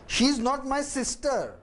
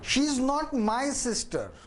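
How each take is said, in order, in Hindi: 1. जोर 'sister' शब्द पर पड़ता है। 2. जोर 'my' शब्द पर पड़ता है। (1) "अब मैं सिस्टर पे जोर देता हूं" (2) "अब मैं माई पर जोर देता हूं"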